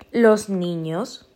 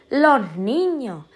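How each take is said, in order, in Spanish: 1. Los sonidos de la s se pronuncian claramente. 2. Los sonidos de la s se debilitan o se pierden. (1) "en vez de los niños" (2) "Con lo bien y lo bonito que es decir los niños"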